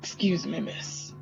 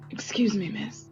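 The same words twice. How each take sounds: First: The put-on male voice is deep. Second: The put-on male voice is fairly high.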